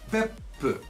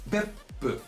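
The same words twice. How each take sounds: First: A short silence comes before the p sound. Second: A short silence comes before the p sound.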